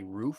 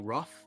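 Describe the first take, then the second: First: The vowel is a long oo sound. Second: The vowel is short, as in book. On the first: This is how the speakers' own region says it. "we say" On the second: This is how Midwestern speakers say it. "in the Midwest they say"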